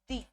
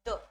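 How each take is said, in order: First: The word ends in a long 'ee' vowel. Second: The word ends in a short 'uh' vowel. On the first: "और एक आप pronounce करते हो दी" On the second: "एक तो आप, या फिर हिंदी में मैं लिख देती हूँ इजी रहेगा, द"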